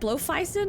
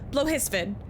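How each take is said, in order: First: The middle of the name sounds like 'fei'. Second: The middle of the name sounds like 'his'. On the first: The speaker calls it wrong. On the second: The speaker calls it right.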